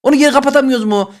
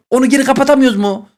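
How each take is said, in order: Both takes have the same delivery.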